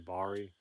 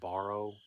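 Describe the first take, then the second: First: The word is pronounced in a relaxed, local way. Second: The word is pronounced carefully and fully. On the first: "Usually I just say Bari" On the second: "I pronounced it correct"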